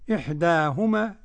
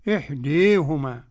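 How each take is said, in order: First: The long vowel stays a fully open 'a'. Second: The long vowel is bent strongly toward 'i'. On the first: "بالفتح" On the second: "بالإمالة الكبرى"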